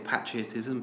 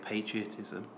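First: It is said with a British pronunciation. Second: It is said with an American pronunciation. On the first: "I say patriotism" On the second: "Americans say patriotism"

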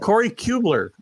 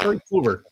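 First: The L sound comes after the B. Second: The L sound comes right after the K. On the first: The speaker calls it wrong. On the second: The speaker calls it right.

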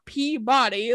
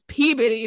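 First: Every syllable is said fully, as spelled. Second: It is said in the reduced local way. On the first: The speaker is not from the area. The speaker calls it wrong. "not Peabody ... pronounce it exactly how it's fucking spelled" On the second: The speaker is from the area. The speaker calls it right. "that's Peabody"

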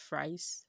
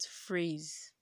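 First: The word sounds like 'fries'. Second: The word sounds like 'phrase'. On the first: The speaker calls it wrong. "phrase is not pronounced fries" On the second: The speaker calls it right. "but phrase"

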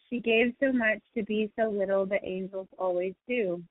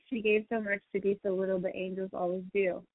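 First: It is said more slowly. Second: It is said at a normal pace.

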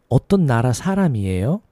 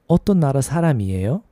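Both takes have the same delivery.

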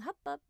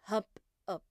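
First: It sounds pleased and encouraging. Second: It sounds irritated and displeased.

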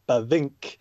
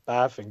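First: The stress is on the second syllable. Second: The stress is on the first syllable. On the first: The speaker calls it wrong. "so it's not Bavinck" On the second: The speaker calls it right. "as long as you emphasize the first half"

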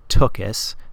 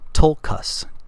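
First: No L sound is heard before the K. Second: An L sound is heard before the K. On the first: The speaker calls it wrong. "not Tukas" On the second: The speaker calls it right. "this is Tulkas, T-U-L-K-A-S"

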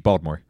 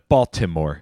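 First: The T is dropped and the word is shortened. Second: The T is pronounced and all syllables are said. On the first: The speaker is a local from the city. "It rolls off the tongue easier when you say it with the D" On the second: The speaker is not from the city. "Instead of"

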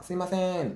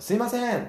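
First: The call is said in a slightly raised voice. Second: The call is said loudest, with some irritation. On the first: A polite first attempt to get attention. "少し大きな声で店員さんを呼ぶわけですよ" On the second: The caller is getting annoyed. "もうちょっと大きな声で"

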